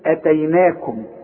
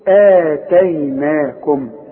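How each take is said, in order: First: The opening vowel is short. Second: The opening vowel is drawn out long. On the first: "الهمزة دي لو فوق الالف تقول ايه؟" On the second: "مدام الهمزة في وسط السطر وبعدها المد بتاعها تقول ايه؟"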